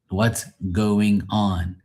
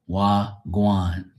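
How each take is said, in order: First: Every word is said fully and separately. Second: The words are run together and chopped short.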